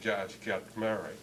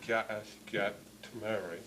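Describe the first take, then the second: First: The phrase is spoken quickly with sounds merged. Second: The phrase is spoken slowly with each sound clear. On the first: "they tend to just say" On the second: "if you slow it down"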